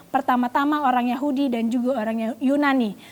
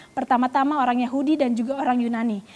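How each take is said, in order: The two takes are said the same way.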